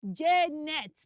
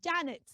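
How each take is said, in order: First: Janet as "JEH-net", punched loud; loud first syllable in Janet, E in both; wrong pronunciation. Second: Janet as "JAN-ut"; correct pronunciation. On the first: Teacher rejects the mistake, Janet as loud "JEH-net". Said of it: "It is not". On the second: Teacher models it for children, Janet as "JAN-ut". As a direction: open A in Janet, weak second vowel. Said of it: "The right pronunciation for that name is". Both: Shown as a demonstration.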